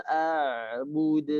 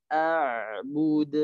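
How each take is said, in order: The two takes are said the same way.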